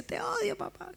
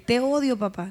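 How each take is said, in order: First: Put-on child's tearful outburst. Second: Put-on angry child's outburst. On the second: Raging child yelling at her father.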